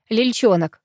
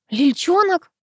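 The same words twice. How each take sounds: First: Said in the usual way. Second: High-pitched, affronted question; indignant echo. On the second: A narrator's reading. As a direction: throw the nickname back crossly. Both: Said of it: "снова рассердилась я".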